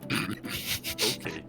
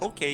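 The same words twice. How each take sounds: First: It is said in a lower pitch. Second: It is said in a high pitch.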